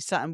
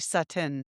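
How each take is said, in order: First: The T is dropped, Jersey style. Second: The T is clearly pronounced.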